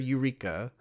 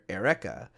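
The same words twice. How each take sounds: First: The name is pronounced with English vowel sounds. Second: The name is pronounced with Japanese vowel sounds. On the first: The speaker calls it wrong. "nobody's calling her Eureka" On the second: The speaker calls it right. "They're calling her Eureka"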